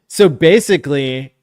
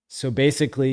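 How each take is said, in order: First: It is said in a funny put-on voice. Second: It is said in a normal speaking voice. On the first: The speaker calls it wrong. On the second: The speaker calls it right.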